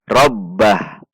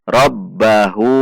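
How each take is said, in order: First: The word ends on a bare h sound. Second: The word ends with an u vowel. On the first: The reading stops at the end of the sentence. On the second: The reading continues without stopping.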